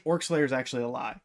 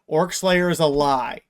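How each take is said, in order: First: Said in the usual way. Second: ORC SLAYER IS A LIE, loud and deliberate; emphatic declaration. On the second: Real, not acted. Fan setting the record straight on Orc Slayer, emphatic declaration. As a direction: punch out each word of "Orc Slayer is a lie". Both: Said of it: "I'm just gonna say that".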